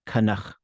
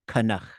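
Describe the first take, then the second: First: Both syllables are short and low. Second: The last syllable is long and low. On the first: "a total flattening of everything" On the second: "it gets dragged down to a long low tone"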